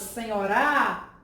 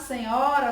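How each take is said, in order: First: The stress falls off the middle syllable. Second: The stress falls on the middle syllable. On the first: The speaker calls it wrong. "Seria impossível chamar essa palavra senhorá" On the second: The speaker calls it right. "a sílaba tônica qual é, gente? A sílaba nho"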